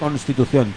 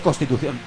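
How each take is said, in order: First: The n before the s is clearly pronounced. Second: The n before the s is dropped. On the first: The speaker calls it right. "que ya no se dice Constitución" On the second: The speaker calls it wrong. "Se dice Constitución. ... Se han obviado todas las N's delante de las S's"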